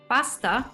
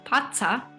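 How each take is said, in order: First: A clear s sound comes before the t. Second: The s becomes a puff of air after t.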